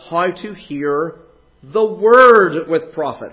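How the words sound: The word word carries the main stress. The focus is on what is listened to. "with emphasis on the word"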